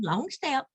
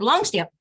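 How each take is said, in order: First: It is said in a firm but gentle tone. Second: It is said in a curt, flat command tone. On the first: The speaker is encouraging rather than commanding. The speaker calls it right. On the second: The speaker is simply issuing an order. The speaker calls it wrong.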